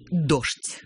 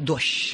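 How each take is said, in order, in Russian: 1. У слова петербургское произношение. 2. У слова московское произношение. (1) "говорят петербуржцы" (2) "говорят москвичи"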